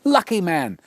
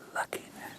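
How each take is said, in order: First: It is said aloud, excitedly. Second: It is whispered softly.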